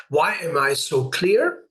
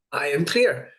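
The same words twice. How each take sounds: First: Rising question to yourself; asking question. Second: Falling statement, "clear" settled down; firm command. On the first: Teacher showing a self-question, rising on "clear". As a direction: ask it as an open question, tune rising on clear. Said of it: "these questions to the subconscious". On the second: Teacher showing a command to the subconscious, falling on "clear". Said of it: "It's really a command". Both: Shown as a demonstration.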